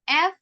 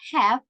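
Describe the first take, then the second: First: It is reduced, with no h sound. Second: It is full, with h and a strong vowel. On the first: "The H is not pronounced" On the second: "it has a little jump on that A"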